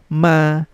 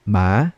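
First: The pitch stays high and level. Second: The pitch rises from middle to high. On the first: "first tone, relax lang" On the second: "We're going to read this in the second tone naman"

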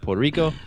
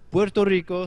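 First: It is pronounced with English sounds. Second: It is pronounced with Spanish sounds. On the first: The speaker calls it wrong. "it's Puerto Rico, isn't it?" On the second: The speaker calls it right. "Say it right, okay?"

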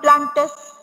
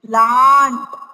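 First: The word is said with two syllables. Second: The word is said with one syllable. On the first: The speaker calls it wrong. "It is not plantes" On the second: The speaker calls it right. "It is plant"

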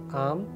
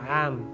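First: The word starts with a plain vowel sound. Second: The word starts with a throaty ayn sound. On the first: The speaker calls it wrong. "It is not aam. No" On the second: The speaker calls it right.

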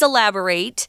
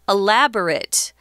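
First: It is pronounced the way the verb is. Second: It is pronounced the way the adjective is. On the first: It means to give more details. "So this is a verb" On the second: It means having a lot of details. "the pronunciation for the adjective is elaborate"

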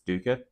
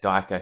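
First: The first vowel sounds like 'oo'. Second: The first vowel sounds like 'eye'. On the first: The speaker calls it right. "I believe Stephen Erickson says it's Duker" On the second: The speaker calls it wrong. "that pronunciation is wrong"

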